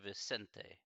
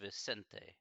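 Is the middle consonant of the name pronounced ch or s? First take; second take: s; s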